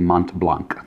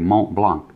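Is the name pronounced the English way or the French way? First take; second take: English; French. First: The name is pronounced with English sounds. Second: The name is pronounced with French sounds. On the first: The speaker calls it wrong. "You don't say Mont Blanc. That's how I say it, because I'm not French" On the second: The speaker calls it right. "You say Mont Blanc"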